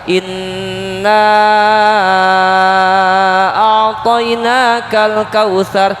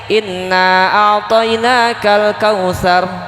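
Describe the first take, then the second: First: The final vowel of inna is held very long. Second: The final vowel of inna is held briefly. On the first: "Boleh lima sampai enam harokat" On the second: "boleh dua harokat"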